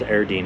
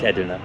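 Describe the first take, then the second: First: The r sound comes before the d. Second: The r sound comes after the d. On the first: The speaker calls it wrong. "which I pronounced as Erdene in the very first video" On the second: The speaker calls it right. "but it's it's Edirne"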